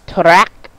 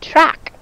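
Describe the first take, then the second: First: The T and R sounds are pulled apart. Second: The T and R sounds blend smoothly together. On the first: The speaker calls it wrong. "We don't say track" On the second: The speaker calls it right. "blend together and said quickly and smoothly"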